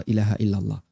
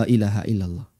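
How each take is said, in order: The two takes are said the same way.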